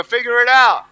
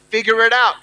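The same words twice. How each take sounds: First: Louder, forceful rallying call; stronger. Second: Said in the usual way. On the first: Shown as a demonstration. Speaker urging audience to repeat the words, stronger. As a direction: punch it out for the crowd to echo. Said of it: "Come on, say it stronger". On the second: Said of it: "say it stronger".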